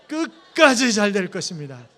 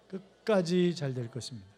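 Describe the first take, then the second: First: 끝까지 is said with extra force. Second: No word is given extra force.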